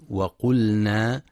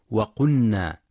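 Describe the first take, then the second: First: وقلنا with the lam heard before the nun, as waqulnā; clear lam. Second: وقلنا with the lam merged into the nun, as waqunnā; wrong lam merged. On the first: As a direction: say وقلنا keeping the lam distinct. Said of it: "لإظهار اللام". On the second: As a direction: demonstrate the mistake: وقلنا swallowed into a double n. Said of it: "فلا يقرأ بإدغام اللام في النون". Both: Shown as a demonstration.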